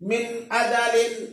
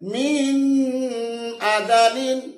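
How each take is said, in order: First: The n is clear, with no nasal hum. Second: The n is held with a nasal hum. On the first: The speaker calls it right. "স্পষ্ট করিয়া গুণনা না করে পড়তে হবে" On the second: The speaker calls it wrong. "তোমার পড়াটা সম্পূর্ণ ভুল হবে"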